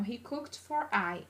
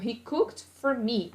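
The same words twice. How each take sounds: First: Slow, soft wrong form "He cooked for I"; wrong version. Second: Slow model "He cooked for me."; correct version. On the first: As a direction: say "He cooked for I" slowly and quietly as the mistake. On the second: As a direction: say "He cooked for me." slowly and clearly as the right form. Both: Shown as a demonstration. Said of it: "E não".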